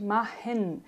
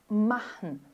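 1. A sílaba final é pronunciada de forma plena e pesada. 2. A sílaba final é leve e um pouco nasal. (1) "tentarem falar esse EN no final, literalmente, machen, de forma pesada" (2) "uma pequena nasalização do alemão"

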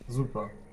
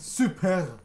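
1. Es wird schlicht deutsch ausgesprochen. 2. Es wird im türkischen Stil ausgesprochen.

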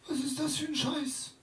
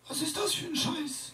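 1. La phrase paraît modérément agressive. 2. La phrase paraît la plus agressive. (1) "J'ai fait un petit crescendo d'agressivité chez le vieux" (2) "J'ai fait un petit crescendo d'agressivité chez le vieux"

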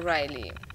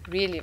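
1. Der erste Vokal klingt wie 'eye'. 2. Der erste Vokal klingt wie 'ee'. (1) "wahrscheinlich nicht Riley" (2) "sondern Really"

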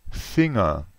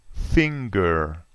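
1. La ng è un unico suono senza g. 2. La ng è seguita da un suono g separato. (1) "ma in tedesco è finger" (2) "In inglese è finger"

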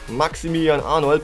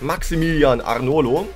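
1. Der Nachname endet auf einen d-Laut. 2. Der Nachname endet auf einen o-Laut.

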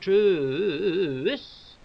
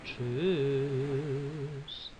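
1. Das Wort wird schnell und gehetzt gesagt. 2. Das Wort wird langsam und ohne Eile gesagt. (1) "es ging jetzt echt zu schnell" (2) "So ist es besser"

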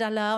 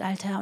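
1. Das Wort wird im hessischen Dialekt gesprochen, ohne das t. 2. Das Wort wird mit einem klaren standarddeutschen t gesprochen.

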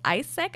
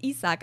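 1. Der Name wird auf Englisch ausgesprochen. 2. Der Name wird genau so ausgesprochen, wie er geschrieben wird. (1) "ich habe gedacht, er heißt Isaac" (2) "es ist jetzt Isaac. Also eigentlich, wie man es liest"

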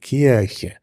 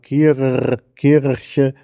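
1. Das r klingt wie ein Vokal. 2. Das r wird hinten gerollt. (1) "neigen dazu, dieses R zu vokalisieren" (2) "sondern mehr ein uvularer Vibrant"

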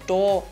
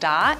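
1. Der Vokal klingt wie ein o. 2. Der Vokal klingt wie ein klares a.

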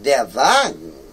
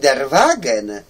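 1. To wyrażenie wymawia się w naturalnym standardowym niemieckim. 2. Każda litera jest wymawiana dokładnie tak, jak jest napisana. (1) "a to nie ma tak" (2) "idąc za literami, będziemy mówili der Wagen"

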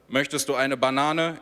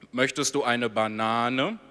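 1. Die Frage klingt schlicht und neutral. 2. Die Frage klingt flirtend. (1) "Hier der normale Satz" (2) "Jetzt geflirtet"

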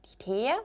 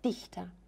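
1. Die Betonung liegt auf der zweiten Silbe. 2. Die Betonung liegt auf der ersten Silbe. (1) "nicht Dichter" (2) "sondern Dichter. Also ihr seht, die Betonung liegt am I"

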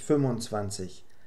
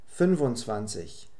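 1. Die Zahl wird stark verkürzt und zusammengezogen ausgesprochen. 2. Die Zahl wird voll ausgesprochen, mit 'un' statt 'und'. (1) "ändert sich die Aussprache von 25 und 27 stark. Sehr flüssig" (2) "wird praktisch immer ohne das d ausgesprochen"

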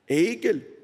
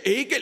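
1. Das Wort wird in normalem, ruhigem Tempo gesagt. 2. Das Wort wird schnell gesagt, in rascher Wiederholung.

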